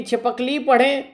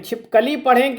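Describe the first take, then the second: First: छिपकली broken before its last syllable, छिपक + ली; split as छिपक-ली. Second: छिपकली broken after छिप, as छिप + कली; split as छिप-कली. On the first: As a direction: say छिपक together, then ली apart. (छिपकली को छिपक-ली तोड़कर बोलें) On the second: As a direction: say छिपकली in two parts, छिप, then कली. (छिपकली को छिप-कली तोड़कर बोलें) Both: Shown as a demonstration. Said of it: "अब इस शब्द को कैसे पढ़ें".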